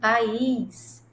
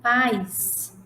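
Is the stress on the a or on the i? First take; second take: i; a. First: The stress falls on the i sound. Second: The stress falls on the a sound.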